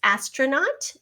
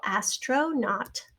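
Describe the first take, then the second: First: Said in the usual way. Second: "astronaut" slowly, part by part; broken into syllables. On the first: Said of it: "here's our ah here in the final syllable". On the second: Shown as a demonstration. Teacher showing the final syllable, "astronaut" said slowly in parts. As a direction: stretch "astronaut" so the last syllable stands out. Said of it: "here in the final syllable".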